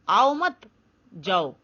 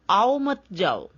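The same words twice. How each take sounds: First: There is a pause after mat. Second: It is said with no pause.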